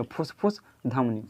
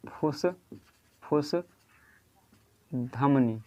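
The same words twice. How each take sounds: First: Said in the usual way. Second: फुसफुस stretched very slowly, each syllable long; very slow dictation of फुसफुस; drawn out. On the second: Shown as a demonstration. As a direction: drag out फुसफुस for students to copy. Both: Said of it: "याद रखिएगा".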